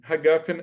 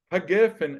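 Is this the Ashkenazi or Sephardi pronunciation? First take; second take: Ashkenazi; Sephardi. First: It is pronounced the Ashkenazi way. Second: It is pronounced the Sephardi way. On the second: "é o costume sefaradi"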